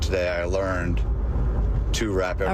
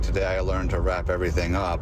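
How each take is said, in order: First: The phrase is said at a normal, clear pace. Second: The phrase is rushed and crammed together quickly. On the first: The speaker calls it right. "instead of" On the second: The speaker calls it wrong. "you say it's so fast, it sounds like you're saying"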